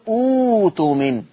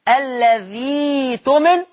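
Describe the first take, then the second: First: It stands alone and starts with an oo sound. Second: It is joined to the preceding word with an ee sound. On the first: The reading starts with this word. "ولما ابتدي اقول اوتمن هكذا" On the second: The word is read joined to the word before it. "أقول الذي تمن لو وصلتهم"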